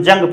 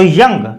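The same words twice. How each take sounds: First: "जंग" begun with a j sound; hasty misreading. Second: "यंग" begun with a y glide; correct y sound. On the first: Teacher showing students a common slip, "जंग" with a j. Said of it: "जल्दबाजी में हम जंग पढ़ते हैं". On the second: Teacher reading the j symbol as y, "यंग" correctly pronounced. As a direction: say "यंग" with y, never j. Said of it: "जे ये का symbol है तो यंग". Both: Shown as a demonstration.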